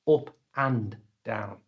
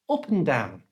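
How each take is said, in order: First: 'And' is said fully, with its 'd'. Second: 'And' is reduced to a short 'n'. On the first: The speaker calls it wrong. "Notice it's not up and down" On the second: The speaker calls it right. "So and becomes n"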